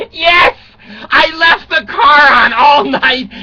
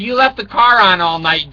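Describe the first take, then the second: First: Higher, louder, slow wailing yes; mock wailing confession. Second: Said in the usual way. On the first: Dad to daughter, hammed-up wailing admission. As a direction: hams up owning the mistake, half-crying.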